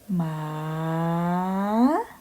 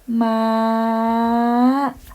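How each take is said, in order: First: The pitch dips low then rises upward. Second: The pitch is high and slightly rising. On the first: "rising tone" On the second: "if it's high tone"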